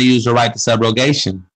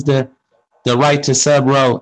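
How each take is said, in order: First: Said in the usual way. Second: Halting at "the", "subro" left unfinished; imitated stumbling pronunciation. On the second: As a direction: mimic someone failing to get past "subro". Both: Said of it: "she couldn't pronounce the word".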